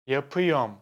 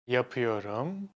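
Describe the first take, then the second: First: A middle syllable is dropped from the word. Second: Every syllable of the word is pronounced. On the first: This sounds more casual. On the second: This is the more common, neutral form.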